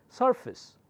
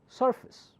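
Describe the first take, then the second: Both takes have the same delivery.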